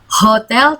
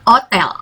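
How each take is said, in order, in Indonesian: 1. Kata ini dimulai dengan bunyi h yang terdengar. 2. Kata ini langsung dimulai dengan vokal. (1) "Bacanya bukan hotel" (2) "tapi hotel"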